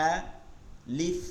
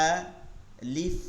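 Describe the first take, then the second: No difference in how they are said.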